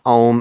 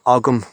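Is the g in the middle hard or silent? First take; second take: silent; hard. First: The middle g is softened almost to silence. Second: The middle g is pronounced as a hard sound. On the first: "I'm pronouncing it Ogham" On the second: "and not Ogham"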